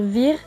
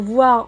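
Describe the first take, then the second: First: The vowel is said as 'i'. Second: The vowel is said as 'wa'. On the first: "on va dire vir" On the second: "Pour dire"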